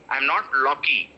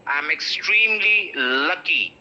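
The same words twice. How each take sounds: First: "lucky" mispronounced as law-kee; wrong pronunciation. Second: Slow example sentence, "lucky" as LUH-kee; correct pronunciation. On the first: Teacher contrasts with the right example, wrong "lawky". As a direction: round the first vowel of "lucky" into aw. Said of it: "it's not law". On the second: Teacher gives students an example, correct "lucky". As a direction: draw out "extremely", then "lucky" with unrounded uh. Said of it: "stress the la". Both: Shown as a demonstration.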